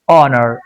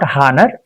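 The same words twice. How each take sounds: First: The word begins with a vowel, h silent. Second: The word begins with an audible h sound. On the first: The speaker calls it right. "it's honor. H goes silent" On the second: The speaker calls it wrong. "H O N O U R is not honor"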